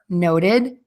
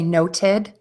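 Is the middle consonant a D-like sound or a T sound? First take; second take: D sound; T sound. First: The middle consonant sounds like a quick D. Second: The middle consonant is a clear T. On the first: "we're going to hear the D sound" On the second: "if you say these words with a T"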